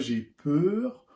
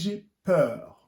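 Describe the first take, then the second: First: The vowel in peur is closed, mouth nearly shut. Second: The vowel in peur is open, mouth wide open. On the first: The speaker calls it wrong. "On ne dit pas" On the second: The speaker calls it right. "on dit ... Le son A"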